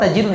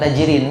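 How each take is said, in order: First: The word ends with an "-un" sound. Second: The word ends with an "-in" sound. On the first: The speaker calls it right. "Kan kita menghafal tajirun dari dulu kan?" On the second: The speaker calls it wrong. "Bukan tajirin kan?"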